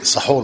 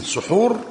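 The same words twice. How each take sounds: First: Short open "a" after the s in سحور; fatha on the seen. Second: Short rounded "u" after the s in سحور; damma on the seen. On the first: Teacher naming the food eaten before dawn, سحور said "saHUR" with fatha. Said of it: "بفتح السين". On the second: Teacher naming the act of eating, سحور said "suHUR" with damma. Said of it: "بضم السين". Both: Shown as a demonstration.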